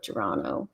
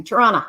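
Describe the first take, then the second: First: Said in the usual way. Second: "Toronto" the local way, second t dropped, ending in "ah"; Canadian pronunciation. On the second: Shown as a demonstration. Streamer showing viewers she's Canadian, Canadian pronunciation of "Toronto". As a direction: say "Toronto" louder, as "Tor-AH-na". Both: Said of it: "You can tell I'm a Canadian".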